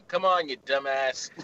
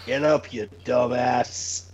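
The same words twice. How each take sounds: First: Slow mocking insult; Courtney Summers wake-up insult. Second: Low, slow mock insult; wrestling promo. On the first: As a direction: drag out the insult slowly. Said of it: "my alarm to be Courtney Summers going". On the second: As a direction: growl it out slowly. Mock alarm wake-up line.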